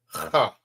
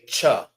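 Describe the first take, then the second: First: It begins with a rough throaty 'h' sound. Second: It begins with a 'ch' sound. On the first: The speaker calls it right. "Almost sound like it's you hawking up some spit" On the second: The speaker calls it wrong. "Some people may say cha, but it's not cha"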